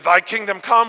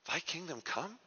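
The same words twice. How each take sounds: First: It is said as a firm exclamation. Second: It is said as a doubtful question. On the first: The speaker is confident the kingdom will come. "with an exclamation point" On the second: The speaker doubts the kingdom is coming. "you say it with a question mark"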